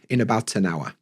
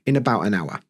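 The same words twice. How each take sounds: First: The T in about is clearly pronounced. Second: The T in about is dropped and linked. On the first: "if I pronounced my T" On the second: "I don't pronounce T's because of my accent"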